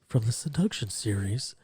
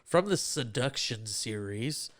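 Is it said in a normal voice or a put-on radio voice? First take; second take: radio voice; normal. First: It is said in a put-on NPR voice. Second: It is said in his normal voice.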